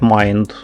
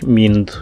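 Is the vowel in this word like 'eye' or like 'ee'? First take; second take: eye; ee. First: The vowel sounds like 'eye'. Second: The vowel sounds like 'ee'. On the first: "так вони не вимовляють «майнд»" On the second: "вони говорять «мінд»"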